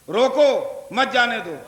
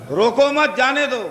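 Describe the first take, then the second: First: Rising روکو alone, clear break, then مت جانے دو falling; pause after روکو. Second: روکو مت joined and held up, جانے دو falling away; group روکو with مت, then let جانے دو fall; comma after مت. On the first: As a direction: stop after روکو, run مت جانے دو together. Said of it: "روکو کے بعد لگا دیجئے". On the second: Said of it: "روکو مت کے بعد لگا دیجئے". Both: Shown as a demonstration.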